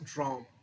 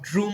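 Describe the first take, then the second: First: The vowel is a short open 'o' sound. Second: The vowel is a rounded 'oo' sound. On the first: The speaker calls it right. "এটা হচ্ছে ড্রম" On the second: The speaker calls it wrong. "আবার ড্রুম বলা শুরু করো না"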